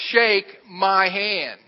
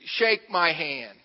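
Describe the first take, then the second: First: "Shake my hand" drawn out very slowly, higher and louder; insistent repeat. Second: Slow, measured request at usual volume; slow demand. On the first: Pastor insisting to baffled driver, "Shake my hand" slow, loud and emphatic. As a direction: stretch each word of "Shake my hand" firmly. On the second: Pastor at a loss facing big driver, slow demand. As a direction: say it slowly, unsure what else to say. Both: Retold or imitated.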